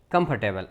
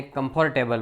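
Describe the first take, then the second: First: કમ્ફર્ટેબલ as "KUMF-tuh-bul", middle squeezed; correct pronunciation. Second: કમ્ફર્ટેબલ as "kum-FOR-tay-bul"; common mispronunciation. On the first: Teacher showing learners the word, correct pronunciation. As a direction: say કમ્ફર્ટેબલ with a weak middle vowel. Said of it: "એનો ઉચ્ચાર થાય". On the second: Teacher showing our usual error, common mispronunciation. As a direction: say કમ્ફર્ટેબલ with a full "for". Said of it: "બોલીએ એમ નહીં". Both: Shown as a demonstration.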